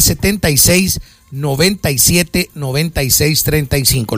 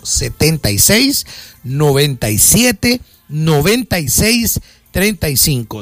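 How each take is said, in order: First: The number is said at normal speed. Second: The number is said more slowly.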